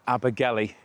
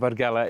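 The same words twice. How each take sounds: First: The name is said the commonly heard, anglicized way. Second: The name is said the traditional local way. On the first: "you might have heard more than anything" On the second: "is the correct way to pronounce it"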